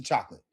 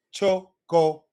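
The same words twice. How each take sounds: First: Chocolate said as two quick syllables, chok-lit; chocolate the English way. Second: Chocolate said cho-co-la-te, every vowel full; chocolate in crisp Spanish syllables. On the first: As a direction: swallow the middle vowel of chocolate. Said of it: "In English, that word is chocolate". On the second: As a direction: give each vowel of chocolate equal time. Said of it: "as opposed to chocolate". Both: Shown as a demonstration.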